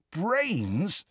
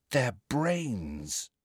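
First: "Brains" high, rising at the end; high, incredulous rise on "Brains"; questioning echo. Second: Soft, falling statement on "brains"; hushed, odd tone, "brains" falling; odd-sounding. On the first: Listener echoes the startling discovery. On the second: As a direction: state "brains" quietly, as an uneasy discovery. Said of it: "She sounded odd". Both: A narrator's reading.

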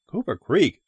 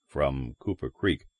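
First: Cooper Creek rising in surprise; rising question. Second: Cooper Creek with a falling tune, low. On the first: Driver echoing the stranger, Cooper Creek rising. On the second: Stranger answering the driver, Cooper Creek falling. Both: A narrator's reading.

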